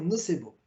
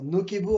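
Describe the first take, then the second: First: The middle consonant is a soft s sound. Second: The middle consonant is a hard k sound. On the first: This is the French way of saying it. "mais en français, on peut dire nocebo" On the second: This is the Latin way of saying it. "c'est la façon euh, en latin de pouvoir le dire"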